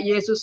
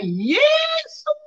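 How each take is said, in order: First: Said in the usual way. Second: High-pitched drawn-out cry; teriakan. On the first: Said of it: "Saya teriak". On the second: Retold or imitated. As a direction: cry out the name, pitch leaping way up. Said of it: "saya teriak". (teriakan melengking memanggil Tuhan)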